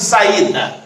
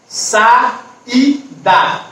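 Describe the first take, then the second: First: Said in the usual way. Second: Sa, í, da with clear gaps; saída split by syllable. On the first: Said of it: "em sílabas diferentes". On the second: Shown as a demonstration. Teacher showing pupils a hiatus, saída split by syllable. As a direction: break saída into three separate syllables. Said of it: "porém em sílabas diferentes".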